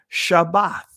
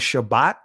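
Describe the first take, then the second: First: The word ends with a soft 'th' sound. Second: The word ends with a hard 't' sound. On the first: The speaker calls it right. "Shabbath is the correct pronunciation" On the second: The speaker calls it wrong. "not Shabbat"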